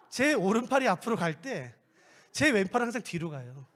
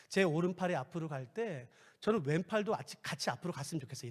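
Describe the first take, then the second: First: Said in the usual way. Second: Quiet, low wish; prayer request whispered softly. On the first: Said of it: "근데". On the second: Shown as a demonstration. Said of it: "이렇게".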